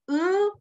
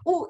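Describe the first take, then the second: First: The vowel is a fronted, rounded 'ü'. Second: The vowel is a firm, plain back 'oo'. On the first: "seperti kita mau bilang I dulu depannya, tapi I-nya nggak dibunyikan" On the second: "kalau di Indonesia bunyinya tegas U ya"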